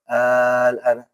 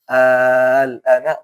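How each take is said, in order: First: The lam sound is dropped and the vowel shortened. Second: The lam sound is clear and the vowel long. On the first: The speaker calls it wrong. "enggak boleh al-ana" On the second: The speaker calls it right. "Tetap dia panjang ya, terus tetap lamnya dibaca"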